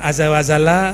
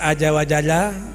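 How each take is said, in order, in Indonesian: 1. Bunyi pertama diucapkan sebagai bunyi z. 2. Bunyi z diucapkan sebagai bunyi j. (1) "ada azza wazala" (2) "Orang baca aja wajala"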